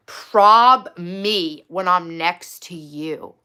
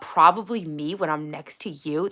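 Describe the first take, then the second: First: Loud, very slow quote; drawn-out, incredulous quoting; slow, weighted read-out. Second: Said in the usual way. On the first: Retold or imitated. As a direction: land each word separately and loudly. Reads match's reply with slow emphasis.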